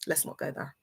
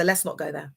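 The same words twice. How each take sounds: First: Much softer, near-whispered warning; hushed warning. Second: Said in the usual way. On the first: Real, not acted. Streamer warning off challengers, hushed. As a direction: drop it almost to a whisper.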